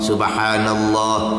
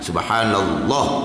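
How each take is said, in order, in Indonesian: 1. Vokal di akhir dibaca panjang. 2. Vokal di akhir dibaca pendek. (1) "Kena ada mad di hujung tu" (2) "Dia, dia potong itu"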